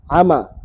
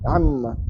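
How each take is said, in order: First: "ama" with a single short m; without tasdid. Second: "amma" with a long doubled m; with tasdid. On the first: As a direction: say "ama" with no hold on the m. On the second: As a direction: hum briefly on the m of "amma". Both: Shown as a demonstration. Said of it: "Tapi kalau tasdid".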